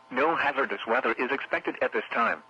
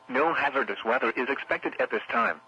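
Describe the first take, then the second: No difference in how they are said.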